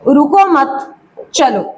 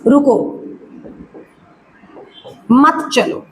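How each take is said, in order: First: A pause comes after the second word. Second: A pause comes after the first word. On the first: Do not stop; keep going. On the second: Stop and do not go.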